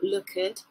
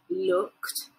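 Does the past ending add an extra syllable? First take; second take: yes; no. First: The ending is said as an extra syllable. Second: The ending is a short t sound. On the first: The speaker calls it wrong. "That's the wrong pronunciation" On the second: The speaker calls it right. "so looked, not lookered"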